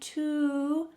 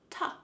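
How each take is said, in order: First: The word has a full oo vowel. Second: The word has a weak, reduced uh vowel. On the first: "sometimes instead of saying to" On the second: "we say ta"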